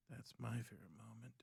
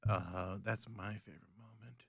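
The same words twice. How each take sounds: First: Hushed whisper of the repeat. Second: Said in the usual way. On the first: Shown as a demonstration. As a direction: say it again under your breath. Whispered repeat of same line.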